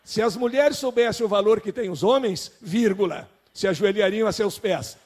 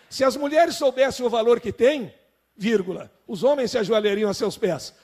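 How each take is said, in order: First: The pause comes after the word 'homens'. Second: The pause comes after the word 'têm'.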